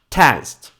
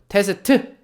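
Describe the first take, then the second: First: The final T is stopped and barely released. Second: The final T is fully released with a vowel. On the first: The speaker calls it right. "마지막에 나오면 줄여줍니다" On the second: The speaker calls it wrong. "한국에서는 테스트라고 해요"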